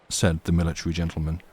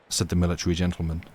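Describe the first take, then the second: Both takes have the same delivery.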